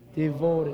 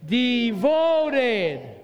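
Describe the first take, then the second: First: It is said in a plain, even way. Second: It is said with loud, excited energy.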